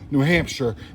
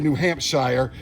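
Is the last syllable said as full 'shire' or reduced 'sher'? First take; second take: reduced sher; full shire. First: The last syllable is a reduced 'sher' sound. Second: The last syllable is a full 'shire' sound. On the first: The speaker calls it right. "it's uh" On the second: The speaker calls it wrong. "you don't say"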